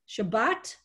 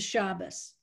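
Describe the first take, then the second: First: The word ends with a t sound. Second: The word ends with an s sound.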